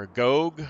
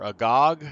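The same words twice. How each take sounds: First: "Agog" with a long o in the last syllable, uh-GOHG; second syllable of "Agog" as a rounded "gohg"; alternative pronunciation. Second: "Agog" with an open ah in the last syllable, uh-GAHG; second syllable of "Agog" as an open "gahg"; alternative pronunciation. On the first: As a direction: say "Agog" to rhyme with rogue. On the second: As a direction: say "Agog" to rhyme with log. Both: Shown as a demonstration. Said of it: "I'm not sure how that's pronounced".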